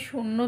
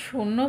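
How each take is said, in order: Both takes have the same delivery.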